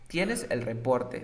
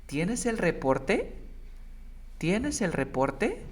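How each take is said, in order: First: "¿Tienes el reporte?" said slow with a falling tune; statement tune. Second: "¿Tienes el reporte?" slow, higher, with a clear rise at the end; question tune. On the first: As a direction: say it flat and falling, like stating a fact. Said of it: "Tú no dices así". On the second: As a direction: ask it slowly, lifting on "reporte". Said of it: "sino dice". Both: Shown as a demonstration.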